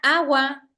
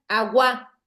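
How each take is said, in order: First: The stress is on the first syllable. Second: The stress is on the last syllable. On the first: The speaker calls it right. "como suena agua, entonces es una palabra grave" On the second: The speaker calls it wrong. "Si fuera aguda, sonara agua"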